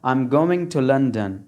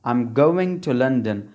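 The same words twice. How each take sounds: Both takes have the same delivery.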